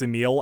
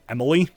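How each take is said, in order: First: The name is said with two syllables. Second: The name is said with three syllables. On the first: The speaker calls it right. "I've just always known it's Emil" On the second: The speaker calls it wrong. "a lot of people pronounce it Emily"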